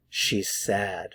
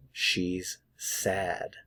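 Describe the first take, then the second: First: Said in the usual way. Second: "She's ... sad", softer, with a clear gap between the words. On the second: Shown as a demonstration. Teacher models "She's sad" for learners, slow and word by word. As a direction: separate "She's" and "sad" carefully. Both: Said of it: "notice the vowel sound".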